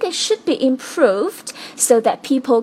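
The word improved is strongly stressed. The speaker calls it right. "这里需要特别重读的是It should be improved，在它后面有一个停顿"

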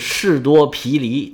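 It is pronounced the Mandarin way.

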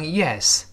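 The pitch falls at the end of the word. It means agreement: yes. "如果是是读成Yes 是降调"

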